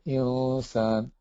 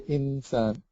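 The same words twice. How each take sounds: First: The n is hidden in a nasal hum. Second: The n is pronounced clearly with the tongue touching. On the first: The speaker calls it right. "you say insan" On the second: The speaker calls it wrong. "So you don't say insan"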